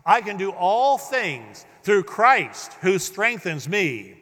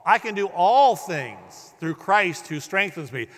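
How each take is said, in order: First: "all" and "Christ" both punched, slow and louder; emphatic on "all" and "Christ"; stress all and Christ. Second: "all" hit harder and louder; stress on all. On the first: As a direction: hit "all", then hit "Christ". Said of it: "Stress the all in the Christ". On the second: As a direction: punch the word "all" in the verse. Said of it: "Stress the all". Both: Shown as a demonstration.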